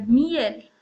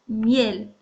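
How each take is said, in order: First: Miel split as mi-el, stress on the I; mi-EL becomes MI-el; wrong stress on the I. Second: Miel in one syllable, mjel, stress on the E; mjel, not mi-el; correct stress. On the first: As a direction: stress the I in miel, two syllables. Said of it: "Si yo marcara la voz en la I". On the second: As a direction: say miel with a glide. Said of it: "no miel". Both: Shown as a demonstration.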